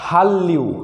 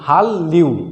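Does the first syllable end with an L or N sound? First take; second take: L; L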